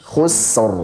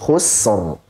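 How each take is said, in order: No difference in how they are said.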